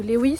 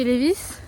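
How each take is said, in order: First: "Lewis" said with a w sound; alternative pronunciation of Levi's. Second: "Levi's" said with a v sound; one pronunciation of Levi's. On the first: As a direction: say "Lewis" with a w replacing the v. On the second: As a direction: say "Levi's" with a v in the middle. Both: Shown as a demonstration. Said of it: "je sais pas comment on dit".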